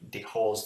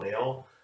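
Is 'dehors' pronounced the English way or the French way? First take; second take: English; French. First: The word is pronounced the English way. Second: The word is pronounced the French way. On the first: "put them into an English accent" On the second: "this comes from the French uh, for outside"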